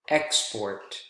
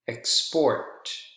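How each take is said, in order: First: The stress is on the first syllable. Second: The stress is on the second syllable. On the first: It is used as a noun. "two-syllable nouns, more often than not, are usually stressed on the first syllable" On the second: It is used as a verb. "two-syllable verbs are usually stressed on the second syllable"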